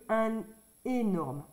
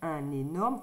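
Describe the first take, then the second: First: The words are kept apart with no linking n. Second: The n sound links into the following vowel. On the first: The speaker calls it wrong. "que un énorme" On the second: The speaker calls it right. "on fait la liaison. ... c'est plus joli de dire un énorme"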